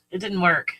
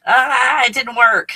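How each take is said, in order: First: Said in the usual way. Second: Louder, exasperated. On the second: Real, not acted. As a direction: throw up your hands. Loud exasperated.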